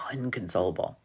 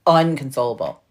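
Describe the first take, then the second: First: Low, whispery hush; hushed for emphasis. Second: Said in the usual way. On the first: Real, not acted. Teller stressing how hard they laughed, hushed. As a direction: drop to a near whisper on the word.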